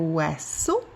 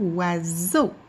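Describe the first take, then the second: First: The middle consonant is a hissing S sound. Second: The middle consonant is a buzzing Z sound. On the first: The speaker calls it wrong. "au lieu de faire" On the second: The speaker calls it right. "ça va devenir"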